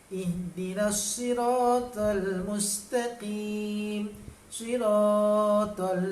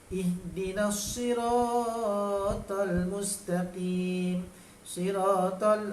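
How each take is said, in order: First: A vowel in the final word is held too long. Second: A vowel in the final word is held briefly. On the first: The speaker calls it wrong. "panjanglah pula" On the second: The speaker calls it right. "tu betul pula"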